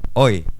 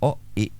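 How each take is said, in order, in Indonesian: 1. Kedua bunyi digabung menjadi satu kata. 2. Kedua huruf diucapkan terpisah, sendiri-sendiri. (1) "tapi O I" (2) "nggak nggak nggak pisah, nggak O I"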